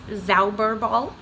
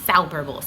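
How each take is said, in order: First: The word begins with a plain z sound. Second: The word begins with a ts sound. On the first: The speaker calls it wrong. "looks like it's pronounced Zauberball, but that is not how you say it" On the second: The speaker calls it right. "instead of a Z at the beginning, you have like a T S sound"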